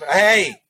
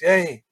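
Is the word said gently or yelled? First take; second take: yelled; gently. First: It is yelled loudly and sharply. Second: It is said gently and calmly.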